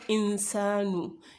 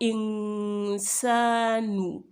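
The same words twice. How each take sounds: First: The n is short without a nasal hum. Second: The n is held with a nasal hum. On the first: The speaker calls it wrong. "not insanu" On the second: The speaker calls it right. "you would make a gunna on it"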